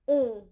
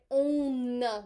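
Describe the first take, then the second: First: The final N sound is left silent. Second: The final N sound is clearly pronounced. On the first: "Normally, you do not pronounce that N" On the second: "I will say the N now"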